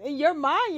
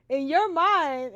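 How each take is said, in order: First: Said in the usual way. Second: "in your mind" drawn out slowly and loud; slow emphatic. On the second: Shown as a demonstration. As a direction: stretch "in your mind" with weight on "your".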